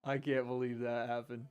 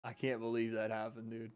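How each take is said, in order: First: Much softer, hushed disbelief; stunned quiet. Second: Even softer, hushed disbelief; stunned quiet. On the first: Streamer muttering to chat after a shock knockout, hushed disbelief. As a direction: say it under your breath, shocked. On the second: Streamer repeating himself to chat after the knockout, hushed disbelief. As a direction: barely voice it, still shocked. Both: Real, not acted.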